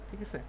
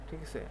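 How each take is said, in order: Both takes have the same delivery.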